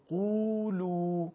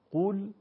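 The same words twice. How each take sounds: First: قولو with the uu stretched double; two-beat uu in قولو; long uu. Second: قول with a short Arabic u; one-beat u in قول. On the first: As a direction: draw out the vowel in قولو. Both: Shown as a demonstration. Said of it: "کشش تفاوت داره".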